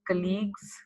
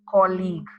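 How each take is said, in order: First: The first syllable does not sound like 'call'. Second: The first syllable sounds like 'call'. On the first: The speaker calls it wrong. "everyone pronounces this as colleagues, okay, which is wrong" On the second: The speaker calls it right. "C A L L, call, eek. All right, this is the right pronunciation"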